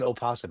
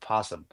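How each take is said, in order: First: The word begins with an extra vowel sound. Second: The word begins directly with the p sound. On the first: The speaker calls it wrong. "It's not an opossum" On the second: The speaker calls it right. "It's a possum"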